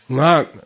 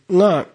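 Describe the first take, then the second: First: The word is said with a low tone. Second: The word is said with a high tone. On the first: It means ordinary speech. "low-tone ngak, means speech" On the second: It means mantra, enlightened speech. "with an accent on it, high tone, means mantra"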